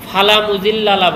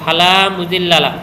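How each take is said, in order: First: The vowel after the 'l' is kept short. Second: The vowel after the 'l' is held long. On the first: There is certainly someone who misguides him. The speaker calls it wrong. "অনেক বক্তাকে দেখা যায় ফালা মুজিল্লালা বলে। তা লামটা যদি তুমি টান না দাও" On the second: There is no one who misguides him. The speaker calls it right. "লামটা লামের সাথে টান দিয়ে পড়তে হবে"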